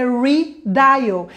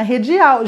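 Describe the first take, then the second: First: Redial said slowly the English way as ridaial; slow careful English redial; correct English pronunciation. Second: Redial said Portuguese style as hedjiau; mimicking wrong pronunciation. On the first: Shown as a demonstration. Teacher corrects students, slow English redial. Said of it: "Não, não tá". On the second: Students mispronounce to teacher, Portuguese-style hedjiau. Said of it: "Muita gente chegava pra mim e falava assim".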